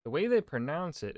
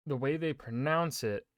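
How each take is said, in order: First: Said in the usual way. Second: Talking with hair in mouth; words caught on hair in mouth. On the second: Real, not acted. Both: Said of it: "I'm getting hair in my mouth".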